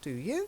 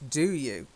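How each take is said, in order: First: The voice rises at the end. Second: The voice falls at the end. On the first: It asks for a reply. The speaker calls it wrong. "It's not" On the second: It does not ask for a reply. The speaker calls it right. "there's no rising inflection"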